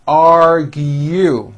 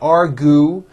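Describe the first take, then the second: First: It is said with a y sound before oo. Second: It is said without a y sound before oo. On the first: The speaker calls it right. "it's argue. There's a hidden Y" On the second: The speaker calls it wrong. "It's not argue"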